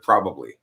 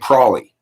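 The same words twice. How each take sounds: First: The word is said in full, three syllables. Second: The word is shortened to two syllables. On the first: "instead of probably" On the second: "It's like saying probably instead of"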